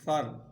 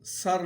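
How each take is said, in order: First: The word begins with a soft th sound. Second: The word begins with a hissing s sound. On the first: The speaker calls it right. "फा की आवाज़ हो।" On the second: The speaker calls it wrong. "सर नहीं पढ़ना। सीन की आवाज़, सीटी की आवाज़ यहाँ पर नहीं आनी चाहिए।"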